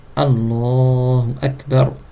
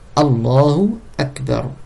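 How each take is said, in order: Both takes have the same delivery.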